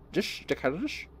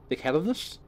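First: Slushy Scottish impression with sh for s; Sean Connery. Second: Said in the usual way. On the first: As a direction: say "dickheadedness" with every s turned to sh, higher-pitched. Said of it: "Sean Connery".

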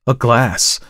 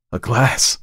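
First: Higher, louder and clearly spoken; crisp, forceful exclamation. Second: A touch of hoarseness, raised pitch; shocked, mildly hoarse cry; hoarse exclamation. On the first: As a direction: cry it out clearly in disbelief. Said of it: "repeated it more clearly". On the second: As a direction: catch your breath on it, slightly hoarse. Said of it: "he said hoarsely". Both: A narrator's reading.

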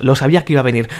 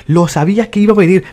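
First: Said in the usual way. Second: Repeated higher and louder, exasperated; annoyed second take. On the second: Real, not acted. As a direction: say it again, fed up and louder.

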